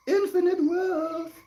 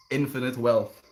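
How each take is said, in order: First: Much higher and slower, sing-song; high silly voice. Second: Said in the usual way. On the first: Pretend. Streamer repeating his own line to chat, high slow sing-song. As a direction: stretch "Infinite wealth" up high and slow.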